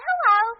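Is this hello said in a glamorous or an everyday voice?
everyday. It is said in a plain everyday voice. The caller is thought to be a woman. "you would have just said hello in your everyday voice"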